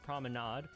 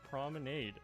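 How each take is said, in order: First: The word is pronounced the French way. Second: The word is pronounced the English way. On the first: The speaker calls it wrong. "but that's a French word and it's pronounced promenade" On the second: The speaker calls it right. "This is an English word pronounced promenade"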